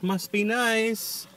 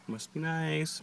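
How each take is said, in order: First: High, slow, drawn-out jealous whine; sarcastic whine. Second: Muttered aside, a little jealous; dry envious remark. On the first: Repeated, stretched for effect. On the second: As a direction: say it under your breath, slightly envious. Teasing about sushi. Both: Real, not acted.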